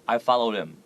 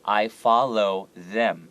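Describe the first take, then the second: First: The L and TH sounds are swallowed. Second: The L and TH sounds are clearly articulated. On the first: The speaker calls it wrong. "if you don't do it, it will sound like this" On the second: The speaker calls it right. "make sure your tongue comes out between your two front teeth. That right here"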